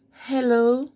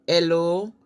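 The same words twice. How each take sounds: First: Said in the usual way. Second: "hello" said as "ello"; dropped H. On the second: Shown as a demonstration. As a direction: start "hello" straight on the vowel. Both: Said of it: "the H is never pronounced".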